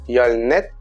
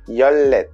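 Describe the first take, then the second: First: The second syllable starts with an n sound. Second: The second syllable starts with an l sound. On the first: The speaker calls it wrong. "j'entends beaucoup dire yolnet" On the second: The speaker calls it right. "mais en fait c'est yollet"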